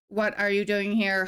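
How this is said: It sounds like the Star Trek computer voice.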